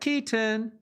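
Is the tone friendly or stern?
friendly. It is said in a warm, friendly tone.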